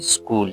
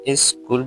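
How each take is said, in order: First: The word begins directly with the s sound. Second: An extra vowel sound comes before the s. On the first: The speaker calls it right. "तो correct pronunciation इसकी क्या है" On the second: The speaker calls it wrong. "इसको भी लोग क्या ई से शुरू करते हैं"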